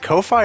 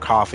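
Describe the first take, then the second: First: The second syllable rhymes with 'fly'. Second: The second syllable rhymes with 'fee'. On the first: "I've always pronounced it Ko-fi, like Wi-Fi" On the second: "it would be just coffee"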